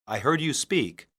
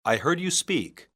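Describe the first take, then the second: No difference in how they are said.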